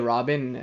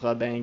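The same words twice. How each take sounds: First: The name is said with an English pronunciation. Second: The name is said with a French pronunciation. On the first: "You can say Robin. I don't think he'll take offense" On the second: "I'm used to seeing it in French, so I say it in French"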